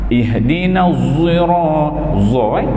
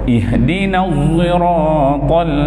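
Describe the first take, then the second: No difference in how they are said.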